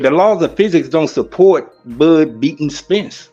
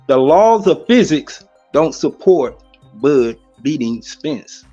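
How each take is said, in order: First: It is said at normal speed. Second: It is said slowly.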